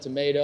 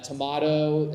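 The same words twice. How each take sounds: First: It is said with an American pronunciation. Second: It is said with a South African pronunciation. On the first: This is the usual pronunciation around the speaker. "instead of tomato" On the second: This is how the speaker said it as a child. "I used to say"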